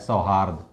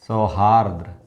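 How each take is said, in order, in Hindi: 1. शब्द का अंत सादे 'd' की ध्वनि पर होता है। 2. शब्द के अंत में 'd' के बाद एक अतिरिक्त 'r' है। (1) "सही शब्द है सौहार्द" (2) "ये अक्सर लोग बोलते हैं"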